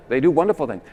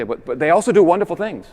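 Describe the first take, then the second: First: Said in the usual way. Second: Higher, louder, protesting tone; mock objector. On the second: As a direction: voice the objection with a raised, insistent pitch. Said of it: "some people say".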